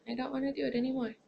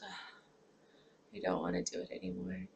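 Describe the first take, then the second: First: Quick, higher, fed-up outburst; rushed frustration. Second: Mild depressed. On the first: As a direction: blurt it out fast and frustrated. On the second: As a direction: say it like you've given up, quietly. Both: Retold or imitated. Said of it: "I can just become depressed".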